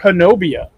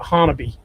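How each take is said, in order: First: The name begins with a 'ho' sound. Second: The name begins with a 'ha' sound.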